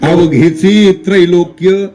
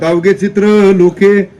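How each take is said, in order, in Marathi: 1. हे 'avaghechi trailokya' असं विभागलं जातं. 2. हे 'avaghe chitra loke' असं विभागलं जातं. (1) "पाठ कसा आहे?" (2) "रोज हरिपाठ म्हणणारे गडी सुद्धा अजूनही म्हणतात"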